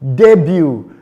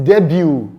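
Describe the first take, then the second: First: The final t sound is silent. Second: The same.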